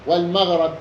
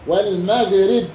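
First: والمغرب with short a after the ر: wal-maghrab; فتح الراء. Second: والمغرب with short i after the ر: wal-maghrib; كسر الراء. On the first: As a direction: say والمغرب with a fatha on the ر. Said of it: "والقياس فتحها فيهما". (والمغرب بفتح الراء) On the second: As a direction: say والمغرب with a kasra on the ر. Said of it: "بكسر الراء". (والمغرب بكسر الراء) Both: Shown as a demonstration.

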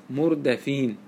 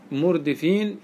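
First: مردفين pronounced mur-da-fin; fatha on the dal. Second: مردفين pronounced mur-di-fin; short 'i' after the d in مردفين; kasra on the dal. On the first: Teacher answering how Medina people read, مردفين with an 'a'. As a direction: open the middle vowel of مردفين to an 'a' after d. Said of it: "بالفتح". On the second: Teacher giving the other readers' version, مردفين with an 'i'. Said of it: "بكسر الدال". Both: Shown as a demonstration.

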